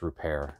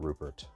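First: The name is pronounced the French way. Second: The name is pronounced the English way. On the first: The speaker calls it right. "I know it's Rupert, He's French" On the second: The speaker calls it wrong. "not Rupert"

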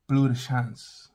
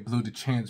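First: It is said with a refined, French-like pronunciation. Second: It is said with a plain English pronunciation. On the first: The speaker calls it right. "if you want to sound more sophisticated, you say Bleu de Chance" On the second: The speaker calls it wrong. "you speak English, you know, you're probably just going to say Bleu de Chance"

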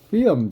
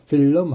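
First: The word is pronounced in an English way. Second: The word is pronounced in a Korean way. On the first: The speaker calls it right. "film 정도로 발음하시는 게 좋아요" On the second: The speaker calls it wrong. "필름 하지 마시고"

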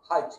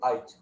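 First: The word starts with an aspirated h sound. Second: The word starts without an aspirated h sound. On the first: "Catholics say Hige" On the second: The speaker is Protestant. "the Protestants say Hige without aspiration"

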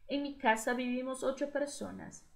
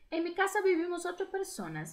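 First: It is read slowly, with pauses. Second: It is read at normal speed.

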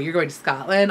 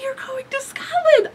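First: It is said in a bitter, resentful tone. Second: It is said in a happy, excited tone. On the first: The speaker begrudges the listener the trip. "I hope you stub your toe on all of the rocks" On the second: The speaker is glad for the listener. "yay, I would totally love to do that"

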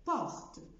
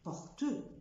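First: The final e is silent. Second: The final e is sounded. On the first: The speaker calls it right. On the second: The speaker calls it wrong. "ما بقولش porte"

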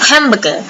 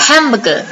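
Both takes have the same delivery.

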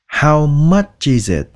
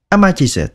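First: Each word is said clearly and separately. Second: The words are said fast and run together. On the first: This is how learners should say it. "chúng ta cố gắng đọc chữ nào ra chữ đó nha" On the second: This is how native speakers say it quickly. "khi mà người ta nói nhanh thì các bạn có thể nghe là A ma chi zit"

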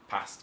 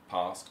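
First: The A vowel is short and flat. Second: The A vowel is long. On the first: This is the Birmingham way of saying it. "the short A sound rather than long A" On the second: This is the speakers' own accent. "rather than long A"

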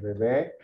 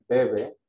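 First: The stress is on the last syllable. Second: The stress is on the first syllable. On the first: It names a baby. "La segunda bebé lleva acento en la E" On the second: It means someone drinks. "porque dice bebe, de beber"

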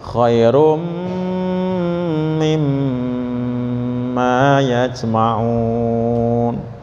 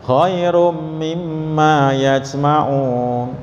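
First: The nasal hum on the m is held long. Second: The nasal hum on the m is cut short. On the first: The speaker calls it right. "bacanya harus dengung" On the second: The speaker calls it wrong. "enggak pas itu ya, karena belum dengung"

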